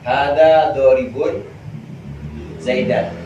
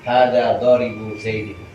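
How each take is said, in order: First: The last word ends in an 'an' sound. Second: The last word ends in an 'in' sound. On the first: Zaid is the direct object of the verb-like noun. "Zaidan nasab" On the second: Zaid is grammatically possessed but means the object. "Zaidin jar"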